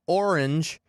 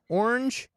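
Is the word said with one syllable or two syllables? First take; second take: two syllables; one syllable. First: The word is said as two syllables. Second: The word is said as one syllable. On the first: "It's two syllables" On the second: "That's one syllable"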